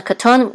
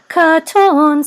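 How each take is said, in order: First: Said in the usual way. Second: High, loud, drawn-out chant; sung, katon trope. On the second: Shown as a demonstration. Teacher showing what katon says, chanted. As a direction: sing out the katon melody. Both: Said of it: "which says katon".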